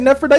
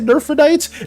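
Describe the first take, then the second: First: The first syllable sounds like 'neph'. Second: The first syllable sounds like 'nerph'. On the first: The speaker calls it wrong. "I said Nephrodite this whole time" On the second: The speaker calls it right. "It's supposed to be Nerphrodite"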